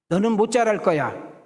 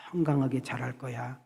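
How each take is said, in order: First: Cursing words. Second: Blessing words. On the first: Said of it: "이렇게 저주를 퍼붓고". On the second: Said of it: "이렇게 좋은 말". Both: Retold or imitated.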